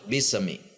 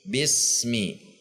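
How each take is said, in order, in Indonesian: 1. Bunyi s memantul sebelum mi. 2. Bunyi s langsung menyambung ke mi tanpa jeda. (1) "atau mantul" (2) "Bunyi s dengan mi tidak ada jeda"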